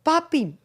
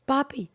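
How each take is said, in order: First: "Papi" pitched higher, falling, as a warning; the "we need to talk" "Papi"; lightly mocked serious "Papi". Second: A lightly serious "Papi", falling at the end; mild serious-talk warning on "Papi". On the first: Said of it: "y no digo". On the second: Retold or imitated. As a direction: call out "Papi" like a talk is coming. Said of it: "el tono de cuando uno se pone serio".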